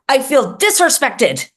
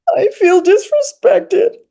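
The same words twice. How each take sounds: First: It is yelled in an angry tone. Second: It is said quietly in a hurt tone. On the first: The speaker is angry about being mistreated. "I'm going to yell / in the first instance, I feel angry" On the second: The speaker is hurt by being mistreated. "I would say in both of them, I probably feel I feel hurt"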